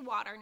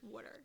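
First: It is said the way people up north say it. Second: It is said in a South Jersey accent.

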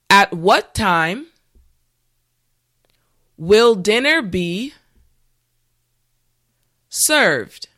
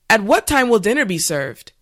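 First: The sentence is said at a slow pace. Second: The sentence is said at a normal pace. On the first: "this time repeat after me" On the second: "the last time at a regular pace"

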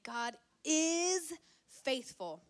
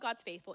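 First: The verb 'is' is said with strong emphasis. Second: The verb is reduced and said casually. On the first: It is certain and already proven. The speaker calls it right. "It's saying God is faithful. ... It's for emphasis" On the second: It is a passing, casual remark. The speaker calls it wrong. "it's not like, oh"

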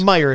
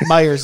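First: The name ends without an s sound. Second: The name ends with an added s sound. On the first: This is the store's actual name. "It's Meijer, if you want to say it correctly" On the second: This is the regional Midwestern way of saying it. "we add S's to everything in the Midwest"

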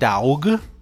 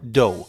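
First: The vowel sounds like the one in dog. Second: The vowel sounds like the one in go. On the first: The speaker calls it wrong. "it is not daug" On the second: The speaker calls it right. "It is do. Think of no, but with a D"

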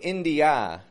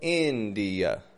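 First: The final vowel is a full, clear 'a'. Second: The final vowel is a quick, quiet schwa. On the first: "I'm not saying India" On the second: "Going very quick and quiet, fading kind of ending"

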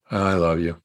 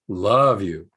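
First: It is said lightly, without much feeling. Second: It is said intensely, with strong feeling. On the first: The love expressed is shallow and routine. The speaker calls it wrong. "Not just a" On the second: The love expressed is deep and wholehearted. The speaker calls it right. "say it with radical, passionate, divine love"

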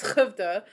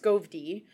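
First: The name begins with a soft H sound. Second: The name begins with a hard SK sound. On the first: The speaker calls it right. "the reason why we learned to pronounce Hovda" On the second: The speaker calls it wrong. "it looks like it's would be pronounced Skovdi"

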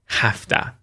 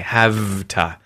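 First: The word is said with an F sound. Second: The word is said with a V sound. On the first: "becomes an F sound" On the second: "the V sound in have"

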